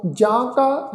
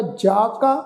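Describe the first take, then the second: First: ਜਾਂ ਕਾ slowly, with nasal ਜਾਂ; nasalised vowel. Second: ਜਾ ਕਾ with pure oral long aa; without nasal. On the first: Teacher shows the dotted word meaning "when", nasalised ਜਾਂ ਕਾ. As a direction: let ਜਾਂ ring through the nose before ਕਾ. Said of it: "ਜੱਜੇ ਨੂੰ ਕੰਨਾਂ ਉੱਪਰ ਬਿੰਦੀ ਲਗਾ ਕੇ ਪਾਠ". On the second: Teacher shows the undotted word meaning "whose", oral ਜਾ ਕਾ. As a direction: keep ਜਾ open, no nasal before ਕਾ. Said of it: "ਬਿੰਦੀ ਰਹਿਤ". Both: Shown as a demonstration.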